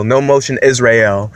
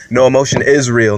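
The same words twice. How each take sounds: First: "Israel" said as "is real", run together into one word; punning Israel. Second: Said in the usual way. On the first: Shown as a demonstration. Plugging his podcast with a pun, running "Israel" into "is real". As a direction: slur "Israel" so it sounds like "is real". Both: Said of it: "That's like a triplicate joke".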